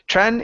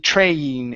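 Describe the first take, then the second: First: The vowel is a short E sound. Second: The vowel is a long A sound. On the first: The speaker calls it wrong. "Instead of tren" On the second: The speaker calls it right. "the long A sound in the word train"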